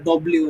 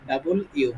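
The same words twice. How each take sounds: First: Said in the usual way. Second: "ডাবল ইউ" as two complete words, double and you; full double-U. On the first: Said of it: "মানে বা ডব্লিউ না". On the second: Shown as a demonstration. Teacher corrects W's name, "ডাবল ইউ" in two full words. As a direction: keep the l in "ডাবল ইউ", no merging. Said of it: "ডাবল ইউ হবে".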